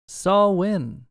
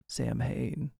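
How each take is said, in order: First: The M is silent in the word. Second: The M is clearly sounded in the word. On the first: The speaker calls it right. "silent M" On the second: The speaker calls it wrong. "You're supposed to say it some crazy way"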